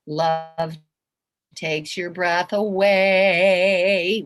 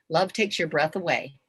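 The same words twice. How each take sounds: First: Loud, very slow, stretching AWAY; drawn-out. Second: Said in the usual way. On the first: Shown as a demonstration. Repeating it to show how big love is, drawn-out. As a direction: hold each word long, swelling on "away".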